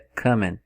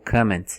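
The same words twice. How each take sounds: First: The final T sound is dropped. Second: The final T sound is pronounced. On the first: "comment é comment" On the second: "ou comment, você pode até falar o T"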